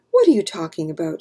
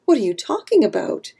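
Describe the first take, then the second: First: Quick, mildly groggy protest; a hurried, understated moan of a question. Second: Mildly baffled question; confused. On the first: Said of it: "she moaned". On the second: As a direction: ask it with a touch of bewilderment. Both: A narrator's reading.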